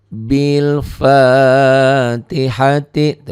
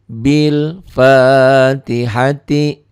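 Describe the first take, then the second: No difference in how they are said.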